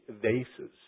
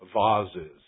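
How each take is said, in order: First: The word is said with the usual pronunciation. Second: The word is said with the El Paseo pronunciation.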